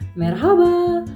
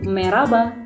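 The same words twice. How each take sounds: First: The middle h sound is clearly pronounced. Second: The middle h sound is dropped, spoken quickly. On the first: "repeat after me" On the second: "Jadi ngomong cepet gitu"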